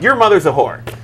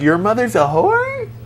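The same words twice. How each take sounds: First: The voice falls at the end, like a statement. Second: The voice rises at the end, like a question. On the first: It is asserted as a fact. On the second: It is only asked, so nothing is claimed.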